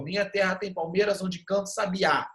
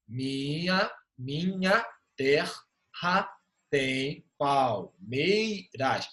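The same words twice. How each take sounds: First: Said in the usual way. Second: Very slow, "Minha terra tem palmeiras" split into separate drawn-out syllables. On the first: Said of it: "Se o verso for". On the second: Shown as a demonstration. Teacher showing students syllable division, "Minha terra tem palmeiras" slowly syllable by syllable. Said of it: "Faz de-, a divisão silábica gramatical".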